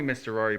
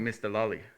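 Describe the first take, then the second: First: The name is said with clear R sounds. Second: The R sounds in the name become L sounds. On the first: "they called me Mister Rory" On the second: "in Korea, there's no R pronunciation"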